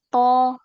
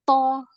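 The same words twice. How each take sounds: First: The syllable is pressed smoothly without a jolt. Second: The syllable is pushed out with a sudden jolt. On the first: The speaker calls it right. "tapi to" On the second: The speaker calls it wrong. "dia enggak to"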